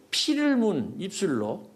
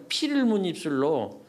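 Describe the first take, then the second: No difference in how they are said.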